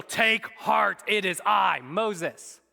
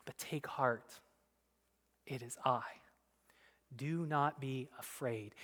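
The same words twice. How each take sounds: First: Louder, a touch higher pronouncement; mock heroic declaration. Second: Much softer, hushed "take heart"; tender reassurance. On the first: Preacher contrasting a boastful Moses with Jesus, mock-proclaiming. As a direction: puff up "Take heart" like a would-be hero. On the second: Acted. Preacher voicing Jesus reassuring frightened disciples, softly. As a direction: speak it quietly like comfort, not a boast.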